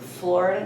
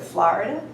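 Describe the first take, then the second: First: The vowel is said without the New York sound. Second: The vowel is said with the New York sound. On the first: This is the newer pronunciation picked up later. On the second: This is the original pronunciation from childhood. "instead of"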